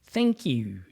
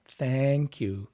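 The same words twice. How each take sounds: First: "Thank you" with "eh" in place of "a"; smiled "thenk you". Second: Said in the usual way. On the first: Shown as a demonstration. Voice coach demonstrates the smiling thanks, "Thank" narrowed to "thenk". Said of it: "T H E N K". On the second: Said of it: "If you say thank".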